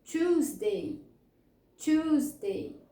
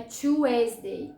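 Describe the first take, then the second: First: "Tuesday" in two syllables, CHOOZ-day; correct pronunciation. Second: "Tuesday" wrongly as choo-EZ-day, three syllables; mispronunciation. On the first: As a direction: say "Tuesday" carefully with one long CHOOZ. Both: Shown as a demonstration. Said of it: "Não é Tuesday".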